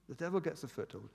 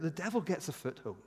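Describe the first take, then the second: First: The same words repeated much softer; hushed echo. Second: Said in the usual way. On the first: Shown as a demonstration. Preacher repeating the warning, softly and gravely. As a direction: drop to a near hush on the repeat.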